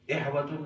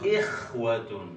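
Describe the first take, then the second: First: The consonant is a soft breathy h sound. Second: The consonant is a raspy throat-scraping kh sound. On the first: The speaker calls it wrong. "खा को प्रोनाउंस करने की बजाय वो हा पढ़ते हैं" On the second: The speaker calls it right. "जैसे आप स्पिट करते हैं ना की आवाज आती है"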